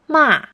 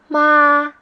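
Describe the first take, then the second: First: It is said with the fourth tone. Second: It is said with the first tone.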